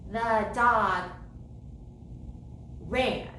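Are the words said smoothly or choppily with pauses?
choppily. The words are separated by stops between them. The speaker calls it wrong. "I wouldn't say the dog ran"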